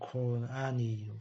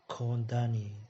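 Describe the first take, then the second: First: The two words are said separately. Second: The final d links onto the next word. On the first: "thay vì đọc riêng là" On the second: "đây nối vào called, called thì sẽ thành"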